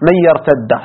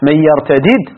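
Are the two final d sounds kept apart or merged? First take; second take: merged; apart. First: The two final d sounds merge into one doubled d. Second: The two final d sounds are pronounced separately. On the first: "والإدغام" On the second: "بالفك"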